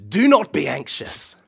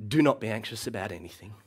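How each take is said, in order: First: Loud, stern, high command; all caps command. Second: Calmer, gentler take of the verse; gentle reading. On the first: Preacher shows the harsh all caps reading, loud and stern. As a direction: bark it at the guilty listener. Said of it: "as if Paul had written it in all caps letters". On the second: Preacher reads the verse to anxious listeners, gentle. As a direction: say it like a mother soothing a child. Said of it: "all of the gentleness of a mother". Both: Shown as a demonstration.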